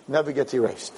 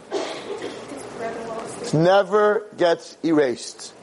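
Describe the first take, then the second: First: Said in the usual way. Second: "never gets erased" drawn out very slowly, higher; slow emphatic repeat. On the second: Shown as a demonstration. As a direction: stretch every word of "It never gets erased". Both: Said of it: "repeated slowly".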